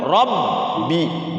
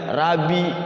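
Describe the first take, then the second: First: The b is held and doubled. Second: The b is short and single. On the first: The speaker calls it right. "cara bacanya sukunkan dulu Rabbi" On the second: The speaker calls it wrong. "jangan Rabi"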